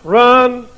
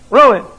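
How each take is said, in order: First: The word has one syllable, like run. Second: The word has two syllables, roo-in.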